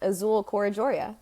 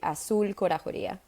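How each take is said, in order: First: The name is said with an English pronunciation. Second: The name is said with its native pronunciation. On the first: "in English terms" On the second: "if you were gonna say my name quote unquote correctly"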